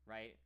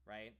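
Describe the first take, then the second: No difference in how they are said.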